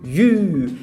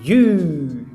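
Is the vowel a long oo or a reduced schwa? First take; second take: long oo; long oo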